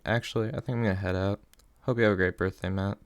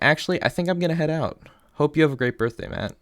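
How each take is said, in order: First: It is read in a hurt, wounded tone. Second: It is read in a neutral, matter-of-fact tone. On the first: The speaker calls it right. "I feel like that's more of an appropriate tone" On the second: The speaker calls it wrong. "even though my tone didn't match it"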